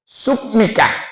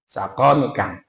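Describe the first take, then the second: First: A 'u' vowel, then 'q' with no vowel. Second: Both first syllables have an 'a' vowel. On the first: "dengan baca dhamma suk wa sukunin, dengan sukun" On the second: "dengan fathah sin dan qafnya"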